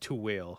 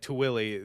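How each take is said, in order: First: The name ends without an extra vowel sound. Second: The name ends with an extra vowel sound. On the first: The speaker calls it right. "really it's like it's Tuwil" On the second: The speaker calls it wrong. "I'm pretty sure I say like Tuwili the entire time"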